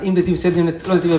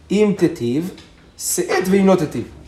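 First: The pause comes after the word se'et. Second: The pause comes before the word se'et.

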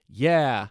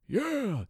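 First: It is said in the speaker's own voice. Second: It is said in an imitated old man voice.

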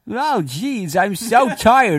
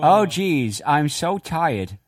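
First: It is said in a sloppy cartoonish voice. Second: It is said in a plain, non-cartoonish voice.

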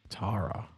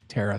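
First: The name is said in a Canadian way. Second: The name is said in an American way.

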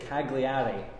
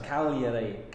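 First: The G sound is clearly pronounced. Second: The G sound is left silent. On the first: The speaker calls it wrong. "we would all say" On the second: The speaker calls it right. "They silent the G"

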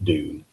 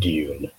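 First: It is said with an American pronunciation. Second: It is said with a British pronunciation. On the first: "a lot of Americans call it Dune" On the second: "as a dedicated Englishman, I call it Dune"

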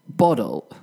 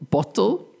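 First: The middle consonant is a soft D sound. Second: The middle consonant is a strong T sound. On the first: This is the American pronunciation. "But American people would say bottle" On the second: This is the British pronunciation. "I would say bottle"

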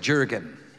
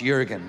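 First: The name begins with an English J sound. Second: The name begins with a Y sound. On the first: This is how the spelling suggests it sounds. The speaker calls it wrong. "it looks like Jurgen, but it's not" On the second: This is the name's real pronunciation. The speaker calls it right. "it's Jurgen"

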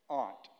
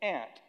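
First: It is said in a New England accent. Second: It is said in a Texan accent.

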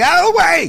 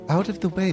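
First: It is shouted very loudly. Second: It is said at a lower volume.

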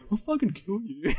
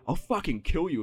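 First: The threat is delivered in a stiff, unconvincing tone. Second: The threat is delivered in a tough, menacing tone. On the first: The actor is not comfortable swearing. The speaker calls it wrong. "you can tell the actor never says fuck in real life" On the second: The line is meant to sound intimidating. The speaker calls it right. "he's meant to be like a badass line"

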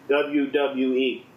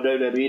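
First: The letters are said slowly and distinctly. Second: The letters are rushed and run together. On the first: The speaker calls it right. "Just say it slowly. You don't have to rush" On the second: The speaker calls it wrong. "I did not say that clearly"

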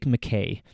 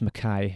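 First: The name is pronounced the American way. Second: The name is pronounced the Scottish way.

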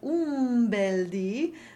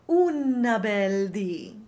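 First: The word 'un' ends in an m sound. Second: The word 'un' ends with an added vowel. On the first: "instead of un bel di" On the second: "make sure you're not saying una bel di"

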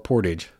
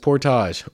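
First: The word is said with an American pronunciation. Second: The word is said with a Canadian pronunciation. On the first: "depending on if you're Canadian or American" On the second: "depending on if you're Canadian or American"

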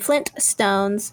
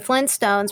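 First: The middle T sound is clearly pronounced. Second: The middle T sound is dropped. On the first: This is the full form people avoid. "rather than" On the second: This is how people commonly say it. "we drop the T, because that's how people speak. So they'll say"

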